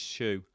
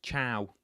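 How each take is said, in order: First: Choux said like "shoe". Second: Choux mispronounced like "chow". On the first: Quiz host giving the pronunciation, choux as "shoe". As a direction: pronounce it "shoe", with a sh and oo. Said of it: "It's pronounced shoe". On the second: Quiz host admitting a wrong guess, choux as "chow". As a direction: say "chow", rhyming with cow. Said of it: "I thought it was pronounced chow". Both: Shown as a demonstration.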